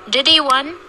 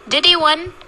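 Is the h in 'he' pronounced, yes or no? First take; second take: no; no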